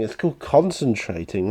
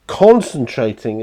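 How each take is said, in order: First: Said in the usual way. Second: Concentrating said slow and loud, stretched out; drawn-out concentrating. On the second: Real, not acted. Painter explaining the pause to viewers, stretched word. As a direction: lean on Concentrating, drawn out and louder.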